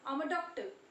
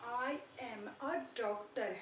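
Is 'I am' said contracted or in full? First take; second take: contracted; full. First: 'I am' is run together into one syllable. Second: 'I am' is said as two full words. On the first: The speaker calls it right. "आई एम की जगह पे आप बोलोगे आम" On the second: The speaker calls it wrong. "आज तक हम क्या बोलते आए"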